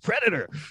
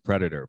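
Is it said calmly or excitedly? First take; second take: excitedly; calmly. First: It is said with loud excitement. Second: It is said calmly, without excitement.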